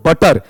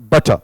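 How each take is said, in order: First: "बटर" with the r fully sounded; "बटर" ending in a clear Hindi r; full final R. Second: "बटर" as buh-tuh, lower, no r; silent final R. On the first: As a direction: say "बटर" as but-tarr, hitting the last r. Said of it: "ऐसा पूरा रे sound आ रहा है". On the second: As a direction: say "बटर" dropping the r entirely. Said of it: "इसका sound क्या रहेगा". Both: Shown as a demonstration.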